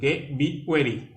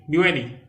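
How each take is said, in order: First: Be ready stretched out slowly, ready drawn long; slow model. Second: Be ready said crisply, higher, ready stressed; brisk model. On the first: Teacher slowly modelling Be ready for learners. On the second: Teacher modelling Be ready, brisk and raised. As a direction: snap out Be ready as a command. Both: Shown as a demonstration.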